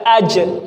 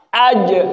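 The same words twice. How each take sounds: First: The final consonant is released with escaping breath. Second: The final consonant bounces without any escaping breath. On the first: The speaker calls it wrong. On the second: The speaker calls it right.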